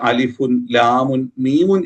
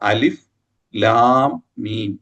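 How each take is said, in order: First: Each letter name ends with an added 'un' sound. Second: Each letter name ends on a bare, stopped consonant. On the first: The speaker calls it wrong. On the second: The speaker calls it right.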